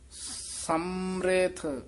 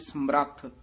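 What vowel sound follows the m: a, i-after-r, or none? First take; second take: i-after-r; a. First: An i vowel is sounded after the r. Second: A full a vowel separates m and r. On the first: The speaker calls it right. "ਜਿਹੜਾ ਮੰਮੇ ਦੀ ਸਿਹਾਰੀ ਹੈ ਨਾ, ਉਹ ਰਾਰੇ ਨੂੰ ਲੱਗ ਜਾਣੀ ਹੈ" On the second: The speaker calls it wrong. "ਜੇ ਰਾਰਾ ਪੂਰਾ ਹੁੰਦਾ ਤਾਂ ਬੋਲਣਾ ਸੀ"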